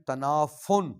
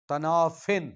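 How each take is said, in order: First: The word ends with an 'un' sound. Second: The word ends with an 'in' sound. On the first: The speaker calls it wrong. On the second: The speaker calls it right.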